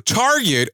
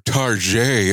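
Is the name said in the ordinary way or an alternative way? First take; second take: ordinary; alternative. First: The name is said in its ordinary pronunciation. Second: The name is said in an alternative pronunciation.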